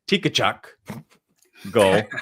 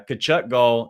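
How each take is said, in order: First: The name has an extra syllable at the start. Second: The name has no extra syllable at the start. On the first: The speaker calls it wrong. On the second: The speaker calls it right.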